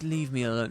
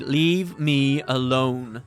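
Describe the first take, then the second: First: It sounds sad and hurt. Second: It sounds irritated and commanding.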